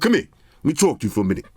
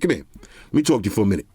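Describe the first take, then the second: First: It is said in his normal voice. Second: It is said in a put-on hood voice.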